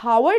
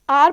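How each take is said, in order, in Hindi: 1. शब्द की शुरुआत में एक सुनाई देने वाली h ध्वनि है। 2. शब्द स्वर से शुरू होता है, इसमें h ध्वनि नहीं है। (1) "हम इसको हावर्ड नहीं पढ़ते स्टूडेंट्स" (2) "आर पढ़ते हैं"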